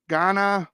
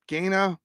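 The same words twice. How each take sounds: First: Ganna said as GAH-nuh, open ah; first guess: Ganna with a broad ah; first try at Ganna. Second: Ganna said as GAY-nuh, long ay; corrected Ganna. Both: Real, not acted. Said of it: "I'm not very good with accents".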